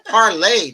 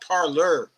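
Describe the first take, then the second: First: The word ends in an 'ay' sound. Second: The word ends in an 'or' sound. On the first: The speaker calls it right. "The correct pronunciation of that is parlay" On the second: The speaker calls it wrong. "not parlor"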